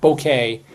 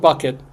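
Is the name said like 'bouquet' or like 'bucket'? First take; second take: bouquet; bucket. First: It sounds like 'bouquet', stressed on the second syllable. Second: It sounds like 'bucket', stressed on the first syllable. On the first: This is the character's pretentious version of the name. "she pronounced it bouquet" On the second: This is the name as it is spelled. "her last name was Bucket"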